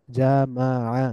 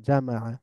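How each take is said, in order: First: জামাআ slowly as ja, ma, 'a; syllable by syllable. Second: জামাআ as one joined word, ja-ma-'a; blended together. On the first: Teacher breaking down the word, জামাআ syllable by syllable. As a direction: split জামাআ into three drawn-out syllables. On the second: Teacher reading joined-up, জামাআ blended into one word. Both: Shown as a demonstration. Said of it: "একটু মিলিয়ে মিলিয়ে পড়ব".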